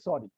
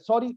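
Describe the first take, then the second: First: It is said stiffly and grudgingly. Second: It is said lightly and carelessly. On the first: The apology is forced out with great reluctance. "बोल तो दिया और क्या चाहिए तुम्हें" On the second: The apology is offhand and not really meant. "इतना अनसिंसियर sorry होता है"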